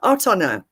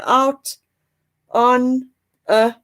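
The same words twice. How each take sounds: First: The words run together into one linked stream. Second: Each word is said separately, without linking. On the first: "we connect it. So in the end, this is what it sounds like" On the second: "in a normal way"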